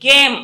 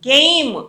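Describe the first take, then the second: First: The vowel is a plain, steady 'e' sound. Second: The vowel glides from 'e' into 'i'. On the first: The speaker calls it wrong. "గేమ్ అనము" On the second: The speaker calls it right. "గెయిమ్ ఐతో పలికి రావాలి"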